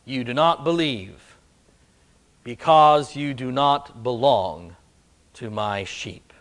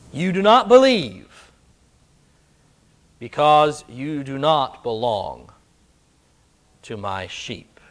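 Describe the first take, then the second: First: Hushed echo of the line; softer, lower repeat. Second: Said in the usual way. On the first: Shown as a demonstration. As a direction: drop the voice on the repeat. Preacher repeats the line more softly.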